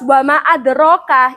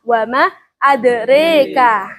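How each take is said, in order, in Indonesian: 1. Vokal setelah 'r' itu 'a' terbuka. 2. Vokal setelah 'r' condong ke 'e'. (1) "menggunakan fathah" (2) "dibaca imalah"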